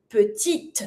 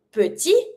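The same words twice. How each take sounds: First: Petite ending on a crisp T; French "petite", T pronounced before mute E; sounded final T. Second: Petit ending on the vowel, T left silent; French "petit" with a mute T; silent final T. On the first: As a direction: say "petite" as puh-teet. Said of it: "pronounce my letter just before that mute E". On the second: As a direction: say "petit" as puh-tee. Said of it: "say petit without pronouncing your T". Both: Shown as a demonstration.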